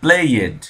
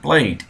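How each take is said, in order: First: The ending is said as a full separate syllable. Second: The ending is a light, barely voiced t sound. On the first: The speaker calls it wrong. "não vai falar assim" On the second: The speaker calls it right. "a pronúncia do ed é mais ou menos um T mudo"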